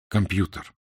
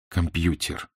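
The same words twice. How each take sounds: First: The consonant before е is hard. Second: The consonant before е is soft. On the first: The speaker calls it right. "а твердо" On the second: The speaker calls it wrong. "не мягко"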